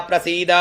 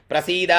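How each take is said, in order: The two takes are said the same way.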